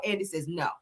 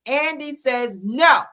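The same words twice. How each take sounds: First: Said in the usual way. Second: Slow, loud, drawn-out stress on NO; emphatic NO. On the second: Real, not acted. Vlogger repeats Andy's refusal to viewers, emphatic NO. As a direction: land NO firmly, higher and louder.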